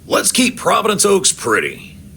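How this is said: It is said with passion, like a revolutionary.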